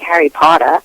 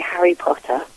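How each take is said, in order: First: It is said in an American English accent. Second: It is said in a British English accent. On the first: "I could say it in American" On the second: "in my English accent"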